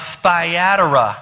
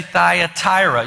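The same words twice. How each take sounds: First: Thyatira said slowly as thigh-AT-ira; alternative pronunciation. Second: Thyatira said slowly as thigh-a-TIE-ra; other pronunciation. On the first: Preacher naming the church, Thyatira pronounced thigh-AT-ira. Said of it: "You can pronounce it any way". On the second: Preacher showing how some people say it, Thyatira pronounced thigh-a-TIE-ra. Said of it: "Some people say Thyatira". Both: Shown as a demonstration.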